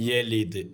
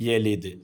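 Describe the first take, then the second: No difference in how they are said.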